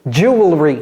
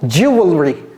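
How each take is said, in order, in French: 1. Il est prononcé littéralement, en suivant la forme écrite. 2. Il est prononcé littéralement, en suivant la forme écrite.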